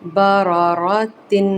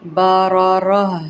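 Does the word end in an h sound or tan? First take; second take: tan; h sound. First: The word ends with a tan syllable. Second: The word ends with a silent h sound. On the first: The reading continues without stopping. "تنوین ہے لیکن گولتا ہے" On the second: The reader stops on this word. "حالی ہا رہ جائے گی، ساکن لگا دیں گے"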